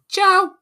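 The word is said in a high-pitched voice. The speaker calls it right. "this was a high pitched voice. And it was like a woman, you know, like a little child going"

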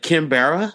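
It is said with an American English accent. The speaker is not a Spanish speaker. The speaker calls it wrong. "Get a gringo to say Quimbara... He'd be like"

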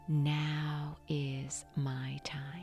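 It is spoken loudly with a full voice. "repeat out loud, engaging your voice"

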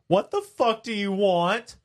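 It is said in an angry, commanding tone.

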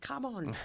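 It sounds annoyed and impatient.

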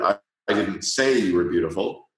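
The stress falls on "say". "or the third word"

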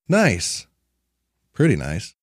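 It sounds restrained and only mildly approving. The place is merely okay. "like backing it down a little bit"

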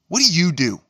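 It sounds aggressive and confrontational.

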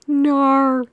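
It is said in a put-on Australian accent.

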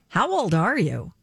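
It is asked with shocked, incredulous emphasis. "Or even worse"

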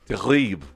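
It is said in southern French, dropping a syllable. "in the south of France, they would say terrible"

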